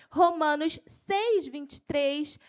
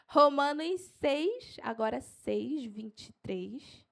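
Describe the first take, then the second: First: Keyed-up, raised verse reference; excited preacher listing verses; carried away. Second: Unhurried, spaced-out citation; slow for note-taking. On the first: Real, not acted. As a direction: announce the reference with rising enthusiasm. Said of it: "eu me empolgo". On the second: Shown as a demonstration. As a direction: spell out the reference slowly for writers. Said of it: "Eu vou falar devagar".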